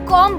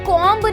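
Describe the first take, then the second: First: The final b sound is silent. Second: The final b sound is pronounced. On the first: The speaker calls it right. "इसे आप कॉम बोलेंगे" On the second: The speaker calls it wrong. "इसे आप लोग कॉम्ब नहीं बोलेंगे"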